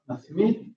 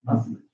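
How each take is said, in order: First: "masmid" drawn out with a full i in MID; stressed full vowel. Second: "masmid" with a weak, reduced second vowel, softer. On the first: Teacher showing the unreduced form, "masmid" with full stressed i. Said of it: "because it gets stressed". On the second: Teacher showing post-tonic reduction, "masmid" with weak second vowel. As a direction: stress MAS and swallow the vowel in "masmid". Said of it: "it gets reduced to mas". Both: Shown as a demonstration.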